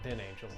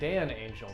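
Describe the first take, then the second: First: The first vowel sounds like the vowel in 'pen'. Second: The first vowel sounds like the vowel in 'pan'. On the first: The speaker calls it wrong. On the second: The speaker calls it right.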